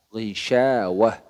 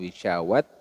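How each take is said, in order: First: The word ends with an h sound. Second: The word ends with a t sound. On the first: The speaker calls it right. "harus dibaca hak" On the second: The speaker calls it wrong. "bukan wisyawat"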